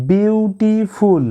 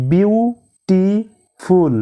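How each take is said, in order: First: Said in the usual way. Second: বিউটিফুল said very slowly as beau-ti-ful; slow split of বিউটিফুল after the first take; syllable by syllable. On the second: Shown as a demonstration. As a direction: stretch বিউটিফুল into three clear beats. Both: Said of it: "তিনবার উচ্চারিত শব্দ".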